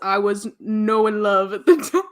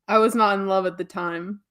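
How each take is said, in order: First: It is said in an imitated character's voice. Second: It is said in the speaker's ordinary voice. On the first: "He says" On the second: "that's me saying it in a normal way"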